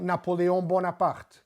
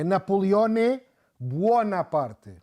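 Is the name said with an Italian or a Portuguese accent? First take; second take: Portuguese; Italian. First: The name is said with a Portuguese accent. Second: The name is said with an Italian accent. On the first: This is the name's adapted local form. "E não Napoleão Bonaparte" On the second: This is the name's original form. "com estilo italiano, com sotaque italiano"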